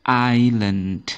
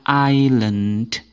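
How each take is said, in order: Both takes have the same delivery.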